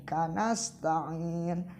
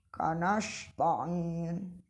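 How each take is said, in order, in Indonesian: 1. Konsonan sebelum t adalah bunyi s. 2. Konsonan sebelum t adalah bunyi sh. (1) "harus sin kecil" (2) "Jangan kanash"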